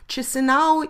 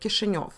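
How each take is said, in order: First: The name is pronounced in its Romanian form. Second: The name is pronounced in its Russian form. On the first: "the uh, Romanian word for the same city" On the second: "This is the Russian way of saying it"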